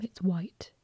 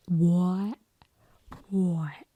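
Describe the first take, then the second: First: Said in the usual way. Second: WHITE with a broad, rounded Essex vowel, like "woy"; mock Essex "white". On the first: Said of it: "If you're from where I am, it's white". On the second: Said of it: "when people say certain words".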